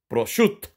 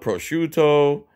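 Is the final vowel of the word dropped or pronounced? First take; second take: dropped; pronounced. First: The final vowel is dropped. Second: The final vowel is clearly pronounced. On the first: "they don't say the last letter" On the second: "Like in English, well, American"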